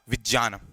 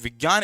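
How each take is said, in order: First: The middle cluster starts with a j sound. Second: The middle cluster starts with a g sound. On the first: The speaker calls it right. "इसका शुद्ध उच्चारण होगा" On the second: The speaker calls it wrong. "इसका शुद्ध उच्चारण नहीं है"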